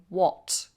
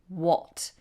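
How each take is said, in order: First: It is said with a British accent. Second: It is said with a British accent.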